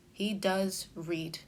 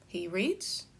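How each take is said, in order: First: Slow answer, weight on "does", "read" falling away; confirming with DOES. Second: Said in the usual way. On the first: Shown as a demonstration. Answering whether your brother reads, confirming with stressed "does". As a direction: confirm it deliberately, drawing out "does". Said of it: "each of these use a different tone". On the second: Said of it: "I could say".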